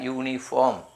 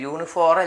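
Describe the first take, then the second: First: The r sound is left silent. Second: The r sound is pronounced in the word. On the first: The speaker calls it right. "ആറ് silent" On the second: The speaker calls it wrong. "യൂണിഫോർ അല്ല"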